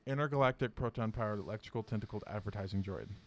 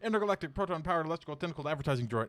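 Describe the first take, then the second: First: The phrase is said at a slower pace. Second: The phrase is said at a normal, quicker pace.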